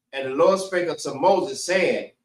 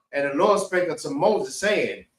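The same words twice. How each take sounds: Both takes have the same delivery.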